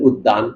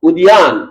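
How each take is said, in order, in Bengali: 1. d-কে দ্বিত্ব করে উচ্চারণ করা হয়, কোনো গ্লাইড ছাড়া। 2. d-এর পরে y গ্লাইড থাকে। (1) "বলেন উদ্যান" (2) "আপনারা লেখেন উদ্যান"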